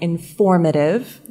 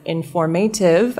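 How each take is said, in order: First: The stress is on the second syllable. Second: The stress is not on the second syllable. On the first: The speaker calls it right. "I would say informative, stress on the second syllable" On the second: The speaker calls it wrong. "instead of informative"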